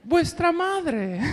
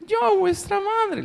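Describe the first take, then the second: First: Laughing through the line. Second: Very high, slow sweetened voice; wolf's fine voice. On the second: Wolf at the door imitating the mother in a high, slow fine voice. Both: Acted. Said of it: "el lobo le había cambiado la voz".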